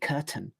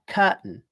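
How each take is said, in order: First: The t is a clear t sound. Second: The t is a glottal stop before n. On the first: It takes more movement, air and energy. "a lot easier than saying curtain" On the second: It takes less movement, air and energy. "I'm moving it to the end of the first syllable... it's just n"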